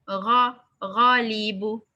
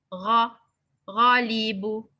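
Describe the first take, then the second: Both takes have the same delivery.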